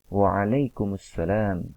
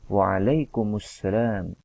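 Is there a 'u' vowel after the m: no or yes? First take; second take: yes; yes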